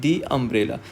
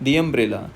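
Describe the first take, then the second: No difference in how they are said.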